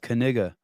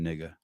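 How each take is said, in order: First: The initial K sound is pronounced. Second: The initial K sound is left silent. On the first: "depending on how you say it" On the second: "depending if you do the, uh, K silent or not"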